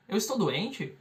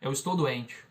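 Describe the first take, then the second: First: "Eu estou doente" as a question, rising at the end; raised final intonation. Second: Said in the usual way. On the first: Shown as a demonstration. Teacher contrasting question with statement, voice rising at the end. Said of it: "levanta a entonação no final". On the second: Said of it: "só levanta a entonação no final".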